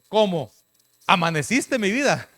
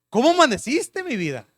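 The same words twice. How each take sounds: First: A break follows 'cómo', sounding disappointed. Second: It flows as one tender question.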